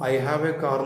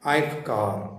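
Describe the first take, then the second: First: Every word is said clearly and fully. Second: The middle words are squeezed almost away. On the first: The speaker calls it wrong. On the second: The speaker calls it right.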